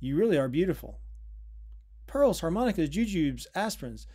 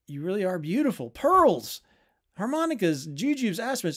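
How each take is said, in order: First: It is read calmly, stopping at the end. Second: It is read excitedly, rushing on without stopping.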